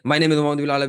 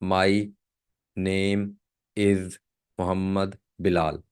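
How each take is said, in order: First: The sentence is spoken fast. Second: The sentence is spoken slowly. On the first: The speaker calls it wrong. "ऐसे नहीं। क्योंकि ये speed आपकी बहुत ज्यादा बन जाएगी" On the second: The speaker calls it right. "आपकी स्पीड बहुत ज़्यादा स्लो होनी चाहिए"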